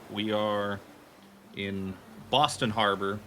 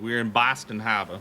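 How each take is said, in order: First: Harbor is said in a plain, general accent. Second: Harbor is said in a local Boston accent. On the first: The speaker calls it wrong. "Oh, excuse me" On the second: The speaker calls it right. "I have to say it correctly"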